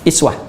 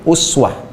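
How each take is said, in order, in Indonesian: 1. Kata ini diawali dengan vokal 'i'. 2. Kata ini diawali dengan vokal 'u'. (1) "harakatnya kasrah" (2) "pakai dhammah, u"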